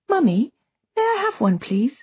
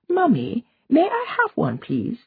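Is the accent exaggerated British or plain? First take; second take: plain; exaggerated British. First: It is said without an exaggerated British accent. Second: It is said in an exaggerated British accent.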